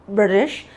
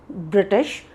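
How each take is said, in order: No difference in how they are said.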